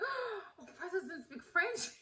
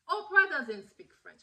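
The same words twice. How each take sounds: First: High, soft gasping question; mock stunned disbelief. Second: Higher voice, firm falling statement; retold matter-of-fact correction. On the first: Naive fan learning Oprah has no French, stunned disbelief. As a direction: act out naive shock, laughter creeping in. Acts out her shocked discovery. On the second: Partner telling [name] about Oprah's language, firm correction. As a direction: imitate him setting someone straight.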